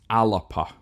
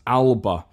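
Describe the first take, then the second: First: It is said in three syllables with a P. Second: It is said in two syllables without a P. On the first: The speaker calls it right. "it is pronounced Alapa, so with a P and an extra A in there" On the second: The speaker calls it wrong. "very commonly mispronounced as Alba"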